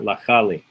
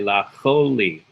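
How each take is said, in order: First: The vowel after ch is an a sound. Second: The vowel after ch is an o sound. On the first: The speaker calls it wrong. "Why not lachali?" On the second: The speaker calls it right. "it's pronounced o"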